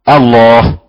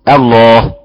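No difference in how they are said.

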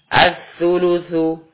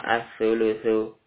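First: The u vowels are said with lips pushed forward. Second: The u vowels are said with lips unrounded. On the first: The speaker calls it right. "ketika bommah dimajukan kedua bibirnya" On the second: The speaker calls it wrong. "jangan cuma as-sulusu. Nah, ini berarti kurang tepat"

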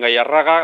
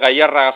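First: The stress is on the penultimate syllable. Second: The stress is on the second syllable. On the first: The speaker calls it wrong. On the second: The speaker calls it right.

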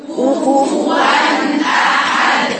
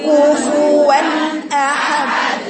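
The two takes are said the same way.

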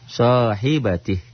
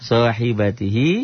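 First: The word ends on a consonant, vowel dropped. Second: The word ends with a final vowel sound. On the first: The reading stops at this word. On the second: The reading continues on without stopping.

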